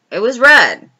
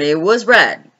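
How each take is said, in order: First: Red punched loud and high with a falling end; stress on red. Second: Said in the usual way. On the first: Acted. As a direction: hit the word red hard to show how bright the wig was. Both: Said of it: "when I say red".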